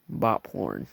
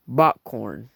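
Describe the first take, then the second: First: "bot porn" said by mistake with a p, in passing; slip of the tongue. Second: "bot corn" said louder with a clear k, fixing the slip; corrected word. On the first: Real, not acted. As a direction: stumble into "porn" instead of corn. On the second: Shown as a demonstration. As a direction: correct yourself, punching "corn". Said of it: "actually pronounced bot corn".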